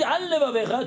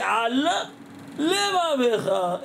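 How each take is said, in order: First: "al levavecha" run together quickly, one l swallowed; wrong liaison. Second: "al" and "levavecha" kept apart, a clear break so both l sounds are heard, slowly; careful separation. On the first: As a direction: rush "al levavecha" as one word, eating the lamed. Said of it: "tu as mangé un lamed". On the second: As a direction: keep the lamed of "al" distinct before "levavecha". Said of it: "Ne pas faire la liaison". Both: Shown as a demonstration.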